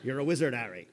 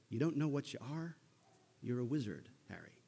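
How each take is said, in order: First: Put-on second try at a West Country accent; a sheepish Hagrid West Country accent. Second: Put-on sheepish half West Country accent; lightly attempted Hagrid West Country accent. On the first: Hagrid telling Harry the news, a West Country accent. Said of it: "I feel a little sheepish trying to do Hagrid's accent". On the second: Hagrid telling Harry the news, a half West Country accent. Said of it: "That's kinda half an accent".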